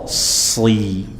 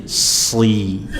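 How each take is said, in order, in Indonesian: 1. Bunyi s itu berat dan tebal. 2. Bunyi s itu berat dan tebal.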